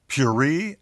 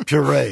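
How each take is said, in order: First: Puree said as PYUR-ee, ending in "ee"; mispronounced puree. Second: Puree said pyu-RAY, ending in "ay"; French pronunciation of puree. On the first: Retold or imitated. Host quoting a listener's complaint, puree mispronounced as PYUR-ee. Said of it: "You pronounce the verb puree as". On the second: Shown as a demonstration. Host reading the listener's correction, puree the French way, pyu-RAY. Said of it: "the correct French pronunciation".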